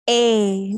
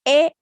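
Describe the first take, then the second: First: The vowel glides as the mouth closes. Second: The vowel stays steady without mouth movement. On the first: The speaker calls it right. "This is the right pronunciation" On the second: The speaker calls it wrong. "without moving your mouth, you are pronouncing it wrong"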